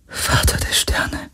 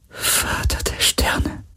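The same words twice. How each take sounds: First: Slow, hushed whisper; awed whisper. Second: Very slow, soft whisper, drawn out; whispered repetition. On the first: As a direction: whisper it slowly, like a prayer. (ehrfürchtig geflüstert) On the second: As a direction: draw each word out in a faint, awed whisper. (ganz langsam, gedehnt geflüstert) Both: A narrator's reading. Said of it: "flüsterte Kirai".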